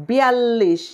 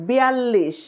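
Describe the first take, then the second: The two takes are said the same way.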